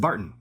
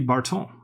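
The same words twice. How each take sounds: First: It is said with an English pronunciation. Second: It is said with a French pronunciation. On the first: "when I said Barton" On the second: "some other French pronunciation"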